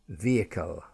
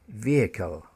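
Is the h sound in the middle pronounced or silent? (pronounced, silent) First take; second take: silent; silent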